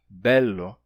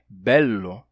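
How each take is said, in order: Both takes have the same delivery.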